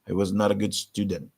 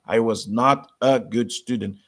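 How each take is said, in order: First: 'Not a' is reduced, American style. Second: 'Not a' is said fully and carefully.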